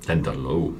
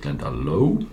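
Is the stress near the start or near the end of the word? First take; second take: end; end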